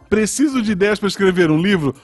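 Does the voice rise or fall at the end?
rises. The voice rises at the end like a question.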